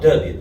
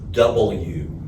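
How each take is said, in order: First: The letter name is clipped into a reduced form. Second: All three syllables of double-you are said fully. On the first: The speaker calls it wrong. "not W" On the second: The speaker calls it right. "The very first lesson I learned at that station was it is W"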